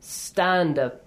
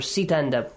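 First: The s goes straight into the t. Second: An extra vowel comes between the s and the t. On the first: The speaker calls it right. "We can start with a silent letter. I mean without any vowel sound right after it" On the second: The speaker calls it wrong. "We don't have it"

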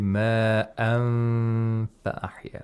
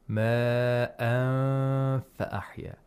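First: The n is held as a complete nasal sound. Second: The n is hidden and only partly nasalized. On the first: The speaker calls it wrong. "We don't say ma an fa ahya. That's incorrect" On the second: The speaker calls it right. "we should make sure that the articulators don't touch the place of articulation"

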